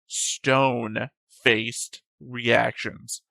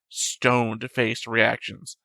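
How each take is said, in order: First: It is said at normal speaking pace. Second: It is said slightly faster than normal.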